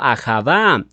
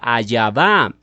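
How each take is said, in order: First: The middle consonant is a throaty h sound. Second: The middle consonant is a y sound. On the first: "ellos hacen sonar la letra Ei como si fuera una J" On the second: "cambian la J por la I y se forma la fonética Ayavá"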